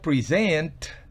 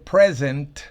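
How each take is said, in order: First: The stress is on the second syllable. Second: The stress is on the first syllable. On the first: It means to give a gift. "estoy diciendo obsequiar" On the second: It means being here now. "estoy diciendo presente"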